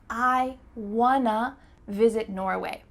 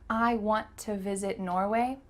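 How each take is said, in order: First: Want to is reduced to one word, wanna. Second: Want to is said fully as two words. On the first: "Let's make a lovely reduction and say" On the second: "Is this the fastest way to say this sentence?"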